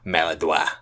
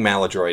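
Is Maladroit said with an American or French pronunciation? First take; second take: French; American. First: The word is said with a French pronunciation. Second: The word is said with an American pronunciation. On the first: This is how some French speakers say it. The speaker calls it wrong. "usually like French people, French Canadians" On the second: This is the usual way people say it. The speaker calls it right. "the common pronunciation"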